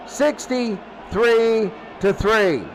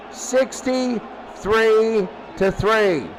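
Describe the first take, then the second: No difference in how they are said.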